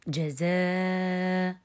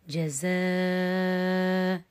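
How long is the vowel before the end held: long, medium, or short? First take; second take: medium; long. First: The long vowel is held for four counts. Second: The long vowel is held for six counts.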